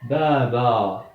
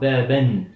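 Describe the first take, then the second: First: The word ends on a plain vowel. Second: The word ends with an n sound. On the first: The speaker calls it right. "Je prononce ça baba" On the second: The speaker calls it wrong. "Je ne dis pas baben"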